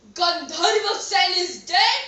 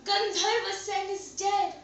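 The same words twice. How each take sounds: First: Loud disbelief, rising on "dead"; shocked question. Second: Said in the usual way. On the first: Acted. King hears of the death from his minister, shocked. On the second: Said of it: "came in running and said".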